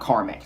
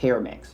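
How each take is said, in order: First: The first part sounds like 'car'. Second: The first part sounds like 'care'. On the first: The speaker calls it wrong. "I used to call it CarMax" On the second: The speaker calls it right. "kind of like Care. I think it's CareMax"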